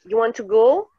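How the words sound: The voice rises at the end. It is a question. "itu adalah pertanyaan"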